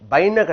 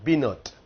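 First: The word sounds like 'baina'. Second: The word sounds like 'binot'. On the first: The speaker calls it wrong. "பைன கிடையாது" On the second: The speaker calls it right.

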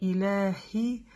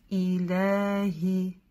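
First: The h sound is very weak. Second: The h sound is clear but moderate. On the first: The speaker calls it wrong. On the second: The speaker calls it right.

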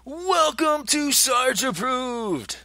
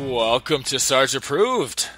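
First: It is said in a big, energetic way. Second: It is said in a calm, mellow way.

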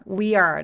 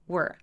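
First: The two words are said separately. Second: The words are joined into one syllable. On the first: The speaker calls it wrong. "따로따로 나눠서 발음하시는 분들 많거든요" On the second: The speaker calls it right. "한 번에 발음하시면 돼요"

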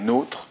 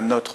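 First: The o vowel is long and closed. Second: The o vowel is short and open. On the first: The speaker calls it right. "mais nôtre" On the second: The speaker calls it wrong. "qui se prononce pas notre"

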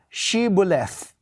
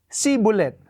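First: The word begins with an sh sound. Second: The word begins with a plain s sound. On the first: The speaker is not an Ephraimite. The speaker calls it right. "sabihin mo nga, Shibboleth" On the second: The speaker is an Ephraimite. The speaker calls it wrong. "hindi nila ma-pronounce yung sh"

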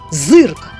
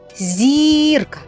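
First: The first consonant is hard, before a y sound. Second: The first consonant is soft, before an i sound. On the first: "а у слові «зирка» перший звук «з» приголосний, твердий" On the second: "у слові «зірка» перший звук «зі» приголосний, м'який"

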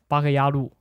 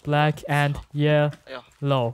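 First: The title is said as Chinese-like syllables. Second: The title is said with English sounds. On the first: The speaker calls it wrong. "GL 把它读成八个鸭路" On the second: The speaker calls it right. "我给观众拼一下"

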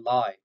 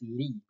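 First: It is said with an English pronunciation. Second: It is said with a Norwegian pronunciation. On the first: It means an untruth. The speaker calls it wrong. "not a lie" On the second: It means hillside. The speaker calls it right. "Norwegian pronunciation is Lie"

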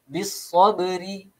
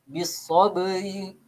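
The two takes are said the same way.

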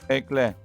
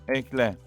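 No difference in how they are said.

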